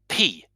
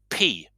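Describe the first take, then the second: First: The P has a strong puff of air. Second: The same.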